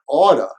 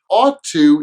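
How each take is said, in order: First: The words blend into one reduced form. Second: Both words are said fully and separately.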